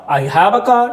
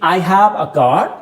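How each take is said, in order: First: Said in the usual way. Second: Slow demo. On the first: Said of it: "तो my car". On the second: Shown as a demonstration. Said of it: "मैंने बोला".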